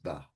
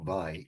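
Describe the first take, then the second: First: The vowel is a plain 'vah' sound. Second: The vowel is a 'vie' diphthong. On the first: The speaker calls it right. "it's Va" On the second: The speaker calls it wrong. "It's not Vai"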